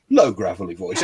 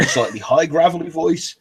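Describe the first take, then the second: First: "low gravelly voice" dropped a little lower, rough-edged. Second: "slightly high gravelly voice" pitched a little up, rough-edged. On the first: Showing the actor's vocal range, low gravelly voice. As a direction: sink the gravel down a little in pitch. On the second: Showing the actor's vocal range, slightly high gravelly voice. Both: Shown as a demonstration.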